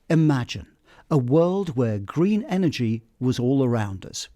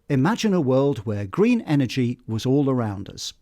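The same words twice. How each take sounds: First: There is a short pause right after imagine. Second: The sentence flows with no pause after imagine. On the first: "putting in a pause just after imagine" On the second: "a quick sentence without a pause"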